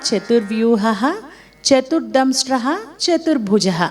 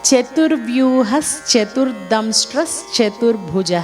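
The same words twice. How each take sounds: First: Each name is said separately with breaks between. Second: The names are run together with linking sounds. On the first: "విడదీసి పలికినప్పుడు" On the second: "ఇది కలిపినప్పుడు"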